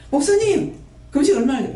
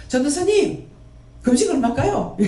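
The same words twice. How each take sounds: First: Pleading even higher to the pastor; same fawning plea, now to the pastor, squeaked up high; mock fawning asker. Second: High fawning plea to the evangelist; mock fawning asker. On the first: Believer begging the pastor about fasting, higher mock plea. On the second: Believer begging the evangelist about fasting, high mock plea. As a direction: imitate a believer pleading, pitched up. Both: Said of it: "이런 식으로 하는 거라".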